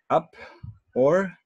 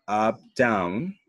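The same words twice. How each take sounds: First: "up" said with the pitch going up; rising tone. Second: "up down" tracing the tune it names; rise-fall tone. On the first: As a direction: slide upward on "up". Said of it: "if it's only up". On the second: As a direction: act out the contour on "up down". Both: Shown as a demonstration.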